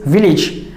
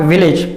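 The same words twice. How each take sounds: First: Village ending in "-ij", short vowel; correct pronunciation. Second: Village ending in "-ayj", longer vowel; wrong pronunciation. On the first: Teacher summing up the right form, correct village with "-ij". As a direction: say village as "VIL-ij". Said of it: "Its correct pronunciation is village". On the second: Teacher summing up the mistake, wrong village with "-ayj". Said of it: "and not village". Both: Shown as a demonstration.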